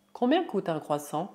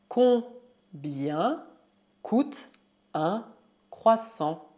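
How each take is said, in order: First: Said in the usual way. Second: Slow, separated syllables; word by word. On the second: Shown as a demonstration. Teacher models price question, slow word by word. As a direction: dictate each word with a pause.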